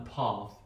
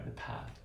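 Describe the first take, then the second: First: "path" with a long ah; Queen's English "path"; broad A. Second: "path" with a flat short a, breathed softly. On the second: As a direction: say "path" the American way. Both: Shown as a demonstration.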